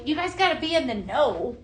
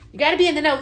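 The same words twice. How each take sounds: First: Said in the usual way. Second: Said through a laugh, a little higher; amused, giggling aside to viewers; laughing repeat. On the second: Real, not acted. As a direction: laugh while repeating the line.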